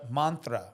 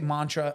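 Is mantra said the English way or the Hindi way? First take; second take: Hindi; English. First: The word is said with a Hindi pronunciation. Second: The word is said with an English pronunciation. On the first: The speaker calls it right. "That's how we say we say it in in in Hindi" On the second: The speaker calls it wrong. "I don't say mantra"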